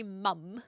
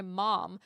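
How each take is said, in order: First: "mum" with a short uh vowel; New Zealand pronunciation. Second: "mom" with an open American ah; American pronunciation. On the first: Recalling the word used when younger, "mum" with short uh. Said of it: "I used to say mum". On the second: Explaining their mixed accent to chat, American "mom" with ah. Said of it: "and that is very American". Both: Shown as a demonstration.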